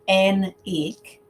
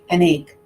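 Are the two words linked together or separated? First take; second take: separated; linked. First: The two words are said separately, robot-like. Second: The two words run together like one word. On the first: The speaker calls it wrong. "We don't say an egg, like a robot" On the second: The speaker calls it right. "We say an egg ... it sounds like one word"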